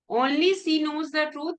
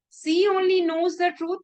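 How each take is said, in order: First: Only said with a rising lift; stress on only. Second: She hit higher and louder, only kept light; stress on she. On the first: Teacher showing only goes with she, stress on Only. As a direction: lean on Only, then let the rest follow. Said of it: "It means no one else knows the truth". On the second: Teacher contrasting word order in class, stress on she. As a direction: punch she, then glide through only knows the truth. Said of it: "means she doesn't do anything else". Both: Shown as a demonstration.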